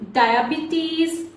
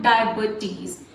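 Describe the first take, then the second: First: Diabetes said die-a-BEE-teez with a long E after the B; teacher demo of diabetes as die-a-bee-teez; correct pronunciation. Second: Diabetes said die-a-buh-teez with a schwa after the B; teacher demo of the wrong diabetes, die-a-buh-teez; wrong pronunciation. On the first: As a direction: model diabetes slowly with a clear long ee in the second syllable. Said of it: "Notice the pronunciation here". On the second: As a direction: show the mistake, diabetes with a weak uh in the middle. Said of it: "It's not diabetes". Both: Shown as a demonstration.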